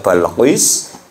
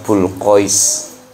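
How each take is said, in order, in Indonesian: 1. Suku kata pertama memiliki vokal a. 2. Suku kata pertama memiliki vokal u. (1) "bisa baca Balqis" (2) "bisa baca Bulqis"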